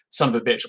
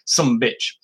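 First: It is run together as one word. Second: It is clipped to two syllables, sumbitch. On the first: "all one word" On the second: "those authorities who look to the Old West as normative on matters of pronunciation"

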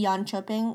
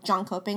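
First: It is pronounced in a Swedish-like way. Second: It is pronounced as English spelling suggests. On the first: "which I still don't think I'm saying right" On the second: "like it's spelt in like the English language"

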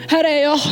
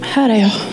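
First: It is said eagerly, like begging to be picked. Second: It is said quietly and softly. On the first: The person is keen to be chosen. "det verkligen är det här. Här är jag, liksom. Det är den här, välj mig" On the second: The person offers themselves timidly. "en så här tyst, bara, alltså"

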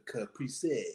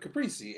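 First: The word is said with extra emphatic flair. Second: The word is said plainly, without extra flair. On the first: "they always say it with a little extra oomph on it" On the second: "that's what I said"

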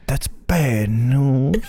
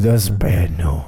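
First: It is said in a British accent. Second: It sounds like a New York gangster.

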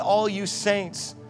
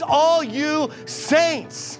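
First: The phrase is said at a normal volume. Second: The phrase is said at a louder volume.

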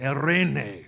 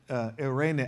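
First: The R is rolled with a trill. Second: The R is said plainly, without a trill. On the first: The speaker calls it right. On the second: The speaker calls it wrong.

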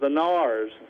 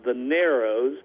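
First: The name is said with one syllable. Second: The name is said with two syllables. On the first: This is how people in the area say it. "the local pronunciation is the Nars" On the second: This follows the written form of the name. "It's called or spelled the Narrows"

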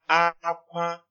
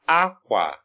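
First: Both syllables are on a high tone. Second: The tone goes from high to low. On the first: It means cry. "it's high tone" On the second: It means cloth. "it's high tone, low tone"

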